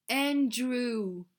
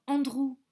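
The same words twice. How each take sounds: First: "Andrew" said the English way; English-style "Andrew"; English pronunciation. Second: Said in the usual way. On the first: Shown as a demonstration. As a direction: say "Andrew" as an English name, not French. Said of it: "des prénoms bizarres".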